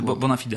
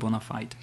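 First: It is pronounced as a Latin phrase. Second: It is pronounced with an American English accent.

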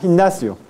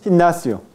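No difference in how they are said.

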